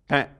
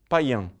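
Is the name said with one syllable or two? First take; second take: One; Two. First: The name is said with one syllable. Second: The name is said with two syllables. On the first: This is how the French say it today. The speaker calls it right. "Uma sílaba só" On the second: This is the easier Brazilian way to say it. The speaker calls it wrong. "Aqui no Brasil a gente insiste em escrever assim porque é até mais fácil de pronunciar"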